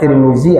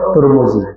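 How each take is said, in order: First: The first syllable has the vowel i. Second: The first syllable has the vowel u. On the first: "ada Tirmizi" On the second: "ada Turmuzi"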